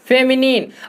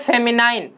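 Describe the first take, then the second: First: The last syllable has a short 'nin' vowel. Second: The last syllable has a long 'nine' vowel. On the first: The speaker calls it right. "दूसरा हमारा है फेमिनिन" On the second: The speaker calls it wrong. "लोग इसको क्या कहते हैं? फेमिनाइन"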